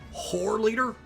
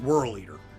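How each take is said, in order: First: The first word sounds like 'whore'. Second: The first word sounds like 'whirl'. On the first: It sounds more offensive. The speaker calls it wrong. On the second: It sounds less offensive. The speaker calls it right. "we'll go with Whirl Eater. That sounds less offensive"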